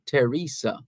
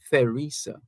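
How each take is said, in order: First: "Teresa" begun with a hard T; "Teresa" with no th sound at all; silent H. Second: "Theresa" with the TH sounded. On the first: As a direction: say "Teresa" as teh-REE-sa, no th. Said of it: "you don't pronounce it". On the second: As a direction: say "Theresa" as theh-REE-sa, th as in thin. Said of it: "as opposed to". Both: Shown as a demonstration.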